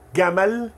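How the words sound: It begins with a hard g sound. "o egípcio vai dizer"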